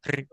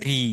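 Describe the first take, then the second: First: রি said short, vowel kept brief; quick clipped রি. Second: রি with the vowel stretched a little; long ri. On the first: Teacher answering a student on the short ri, brief. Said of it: "short রি এর উচ্চারণ হবে যেমন রি". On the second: Teacher answering a student on the long ri, drawn out. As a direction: draw out the i in রি. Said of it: "একটু দীর্ঘ করে উচ্চারণ করতে হবে". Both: Shown as a demonstration.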